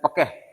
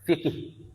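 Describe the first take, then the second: First: It starts with p and has e vowels. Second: It starts with f and has two i vowels. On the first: Some other people say it this way. "Ada juga yang bilang pekeh" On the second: This is the common dialect form. "Dialek yang umum adalah kita bilang fikih"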